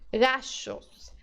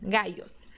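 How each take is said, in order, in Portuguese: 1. O duplo L soa como um SH. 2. O duplo L soa como um glide Y. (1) "é do S H do shopping" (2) "com o som de I mesmo do português"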